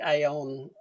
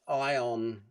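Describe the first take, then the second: First: The name starts with an extra A sound. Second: The name starts directly with the eye sound. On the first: The speaker calls it wrong. "Sorry, I've got to learn to say it properly" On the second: The speaker calls it right. "say it properly"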